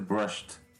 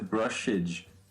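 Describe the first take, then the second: First: The word ends with a t sound. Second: The word ends with a d sound. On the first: The speaker calls it right. "Esse aqui vai ser um som de t" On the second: The speaker calls it wrong. "não vai ser brushed"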